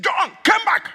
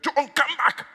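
First: High, commanding summons; calling out. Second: Higher imitated call, less forceful; retold summons. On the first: Retold or imitated. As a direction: call him back across a great distance. Preacher summons an absent husband. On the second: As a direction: echo the calling voice without full volume. Voice heard far away in bathroom.

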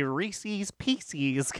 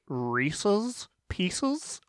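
First: Reese's Pieces slowly, both ending in -eez, softer; pronounced REE-seez PEE-seez. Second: Reese's Pieces slowly, both ending in short -iz; pronounced REESE-iz PIECE-iz. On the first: Polling the gang, Reese's Pieces with -eez endings. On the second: Polling the gang, Reese's Pieces with short -iz endings. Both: Shown as a demonstration. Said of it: "are you a".

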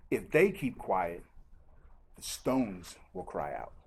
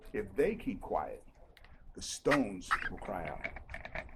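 First: Hushed and slow; slow low Jesus line. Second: Hushed, slow repeat; slower, softer repeat. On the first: Acted. Preacher quoting Jesus, slow and low. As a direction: lower and slow, let it sink in. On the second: Shown as a demonstration. Preacher repeats the verse, slower and hushed. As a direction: drop lower and slow, savor it. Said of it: "preacher repeats the line slower".

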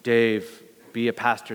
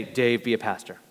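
First: Lower, mock divine call; lightly voiced heavenly command, lower; a hint of a booming God voice. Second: Lower, lightly mocked divine call; a touch of a booming God voice. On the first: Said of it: "this booming voice of". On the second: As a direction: say it like a heavenly command, understated and lower. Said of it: "I never heard God say".

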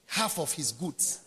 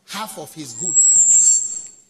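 First: Said in the usual way. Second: "half of his goods" drawn out very slow and much louder; stress on half of his goods. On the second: Shown as a demonstration. Preacher retelling the father's gift, "half of his goods" slow and loud. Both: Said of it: "when his father gave him".

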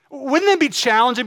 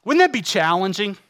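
First: "Wouldn't that be challenging?" repeated higher and louder; louder, higher rhetorical repeat; emphatic repeat. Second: Said in the usual way. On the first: Real, not acted. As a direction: press the question home, with more force.

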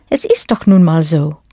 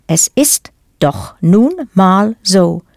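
First: Said in the usual way. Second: Slow, with a pause between words. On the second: Shown as a demonstration. Teacher breaks down a German phrase for learners, word by word. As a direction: separate "doch", "nun", "mal", "so" for a learner.

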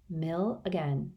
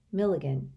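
First: Mill again said slowly and softly, "Mill" drawn out; musing "Mill again"; slow realization. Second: "Milligan" run together as one name, falling; name revealed, "Milligan" with a falling close. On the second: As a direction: fold "Mill again" into the name "Milligan". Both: Shown as a demonstration. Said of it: "Do you see?".

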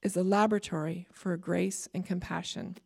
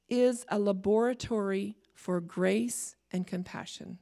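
First: "laboratory" said LAB-ra-tory, stress on the first syllable; American laboratory. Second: "laboratory" said la-BOR-a-tory, stress on the second syllable; "laboratory" in the Canadian way, la-BOR-a-tory. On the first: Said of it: "Okay, or laboratory". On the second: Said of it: "that was my Canadian coming out". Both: Real, not acted.

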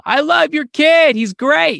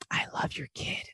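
First: Slow, high, loud praise; yelling. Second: Soft, voiceless praise; creepy whisper. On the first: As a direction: cheer it out like a parent at a game. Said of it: "you could yell at a child". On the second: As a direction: whisper it unsettlingly to a parent. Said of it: "there's more danger in whispering". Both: Acted.

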